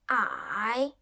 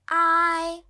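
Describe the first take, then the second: First: The pitch dips low then rises. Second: The pitch stays high and level.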